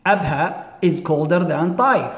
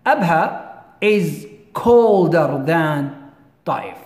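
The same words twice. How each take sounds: First: Said in the usual way. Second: "أبها is colder than طائف" stretched out word by word; slow, careful teacher reading; slow dictation. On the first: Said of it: "teacher repeats example at normal pace". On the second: Shown as a demonstration. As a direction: spell it out slowly for the class. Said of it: "teacher slows example for dictation".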